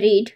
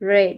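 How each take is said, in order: First: The word sounds like 'reed', with a long vowel. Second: The word sounds like 'red', with a short vowel. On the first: It refers to the present. "Present tense ... এর উচ্চারণ হবে রিড" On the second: It refers to the past. "Past টেন্সে ... এটার উচ্চারণ হবে রেড"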